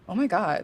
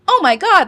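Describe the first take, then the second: First: It is said in a natural everyday voice. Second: It is said in an exaggerated put-on voice. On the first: The speaker calls it right. "making it sound as normal and poss- as possible" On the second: The speaker calls it wrong. "you want to make these crazy voice"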